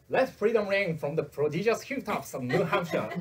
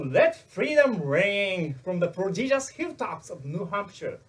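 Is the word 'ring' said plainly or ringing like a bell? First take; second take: plainly; like bell. First: The word ring is said plainly, without emphasis. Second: The word ring is emphasized, ringing like a bell.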